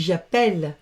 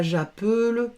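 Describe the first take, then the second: First: "j'appelle" said as zha-pell, with open è; open è sound. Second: "j'appelle" said as zha-peul, with a schwa; wrong closed vowel. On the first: Teacher gives pupils the correct form, "j'appelle" with open è. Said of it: "on dit j'appelle". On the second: Teacher shows pupils what not to say, "j'appelle" as zha-peul. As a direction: keep the e of "j'appelle" closed, like peu. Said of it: "on dit pas". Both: Shown as a demonstration.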